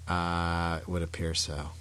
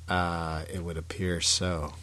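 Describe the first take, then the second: The two takes are said the same way.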